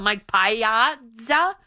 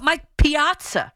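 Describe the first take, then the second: First: "Piazza" slowly as "PIE-ah-za", rising; mock mispronunciation. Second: "Piazza" raised, as "pee-AHT-sa"; Italian pronunciation. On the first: Host mocking critics' logic, slow wrong pronunciation as a question. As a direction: misread "Piazza" as spelt, starting with PIE. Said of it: "No, but that's how it looks". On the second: Host asking critics about a catcher's name, Italian pronunciation. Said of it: "You say them in Italian too". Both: Shown as a demonstration.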